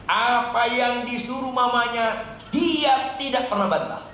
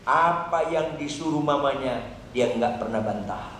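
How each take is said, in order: First: "Apa yang disuruh mamanya" higher, held up in pitch; emphatic repeat. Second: Said in the usual way. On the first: Real, not acted. Preacher repeats daughter's obedience, "tidak pernah bantah" pitched high, emphatic.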